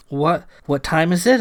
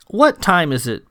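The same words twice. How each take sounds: First: Stammered repeat of "What", rising on "it"; puzzled echo question. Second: Said in the usual way. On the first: A narrator's reading. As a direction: echo "what time is it" haltingly, ending upward. Sam echoes the odd question.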